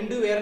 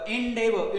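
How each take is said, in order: First: The middle syllable sounds like 'doo'. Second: The middle syllable sounds like 'dev'. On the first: The speaker calls it wrong. "इंडू वेअर नाही" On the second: The speaker calls it right. "बघा इंडेवर"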